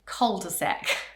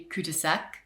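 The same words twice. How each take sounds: First: It is said with an English pronunciation. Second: It is said with a French pronunciation. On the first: "our pronunciation of it as well" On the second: "in French that would be"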